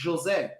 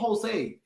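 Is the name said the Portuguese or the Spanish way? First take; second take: Portuguese; Spanish. First: The name is said the Portuguese way. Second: The name is said the Spanish way. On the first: The speaker calls it right. "It's Jose" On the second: The speaker calls it wrong. "it's not Jose. We're not Spanish"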